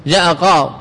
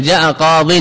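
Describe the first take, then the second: First: قاض cut short without its -in ending; pausal form. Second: قاض said with tanween, "qadin"; unpaused full ending. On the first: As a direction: stop dead at the end of قاض. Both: Shown as a demonstration. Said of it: "قف عليه".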